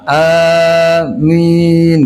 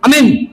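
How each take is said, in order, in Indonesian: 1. Vokal pertama dipanjangkan. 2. Vokal pertama pendek dan terputus. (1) "Jadi A-nya dipanjangin dulu. Amin gitu" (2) "aminnya gini doang ... galak bener itu mah"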